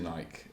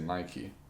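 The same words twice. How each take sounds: First: The name is said with an Australian pronunciation. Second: The name is said with an American pronunciation. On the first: "We say Nike" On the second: "but you guys say Nike"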